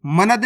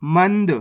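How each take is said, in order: First: मनद with a vowel after the n, ma-nad; wrong full-N reading. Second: मंद with the n closed straight onto the d; correct half-N reading. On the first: Teacher warning learners off a misreading, wrong full-N reading. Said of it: "मनद नहीं पढ़ना". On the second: Teacher showing learners the right reading, half-N joined. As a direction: say मंद as man-d, no vowel between. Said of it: "इस तरीके से पढ़ना है". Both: Shown as a demonstration.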